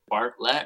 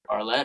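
First: The middle T sound is clearly pronounced. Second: The middle T sound is dropped. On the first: "I don't know if you pronounce that T in the middle" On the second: "or not"

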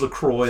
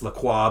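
First: The name is said in an English style. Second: The name is said in a French style. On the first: The speaker calls it right. "but it is LaCroix" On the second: The speaker calls it wrong. "some Francophiles who want to freak out about that and say it's"

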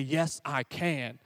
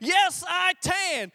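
First: It is said at a normal volume. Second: It is screamed as loud as possible.

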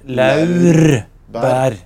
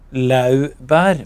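First: It is said with an r after the vowel. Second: It is said without an r after the vowel. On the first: The speaker calls it right. "men det heter laurbær" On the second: The speaker calls it wrong. "trodde het laubærblad"

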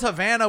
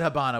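First: The middle consonant is a v sound. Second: The middle consonant is a b sound. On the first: "Havana with a V" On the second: "I said Habana with a B"

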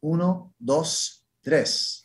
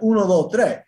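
First: It is said in a standard classroom accent. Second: It is said in a Dominican accent.

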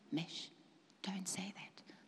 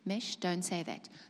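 First: It is said a little more softly. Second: It is said clearly at full loudness. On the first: The inner voice is fading after being ignored. "but he speaks a little bit softer" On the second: The inner voice is heard plainly. "because he spoke very clearly"

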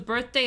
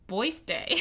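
First: It has a standard 'er' vowel. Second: It has a Yat 'oi' vowel.

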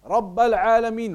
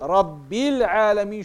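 First: Rabb ends in the vowel a. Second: Rabb ends in the vowel i. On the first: The word is in the accusative case. The speaker calls it wrong. "wrong, it's mansub" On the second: The word is in the genitive case. The speaker calls it right. "should be majroor"

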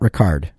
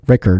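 First: The name is pronounced the French way. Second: The name is pronounced the plain English way. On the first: The speaker calls it wrong. "not Ricard. Not everyone is French" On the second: The speaker calls it right. "it's Mike Ricker"

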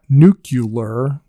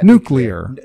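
First: An extra u vowel is heard in the middle. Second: No extra u vowel is heard in the middle. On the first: The speaker calls it wrong. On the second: The speaker calls it right.

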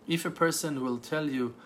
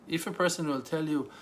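The two takes are said the same way.

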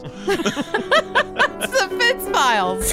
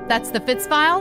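First: The voice falls at the end like a statement. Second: The voice rises at the end like a question.

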